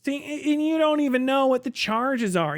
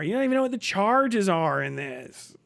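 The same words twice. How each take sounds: First: Higher, smug gotcha line; lightly voiced smug debater; a hint of mocking Andrew Wilson; mock debater impression. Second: Said in the usual way. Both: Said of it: "Andrew Wilson impersonating fucking Destiny".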